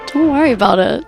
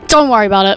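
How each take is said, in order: First: It is said in a flirty tone. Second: It is said in an angry tone.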